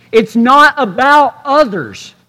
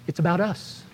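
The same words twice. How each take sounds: First: Slow, punching "not"; stress on not. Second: Much softer, near-whisper "us". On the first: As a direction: hit "not" hard. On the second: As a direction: drop to a hush on "us". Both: Shown as a demonstration. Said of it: "contrast others / us".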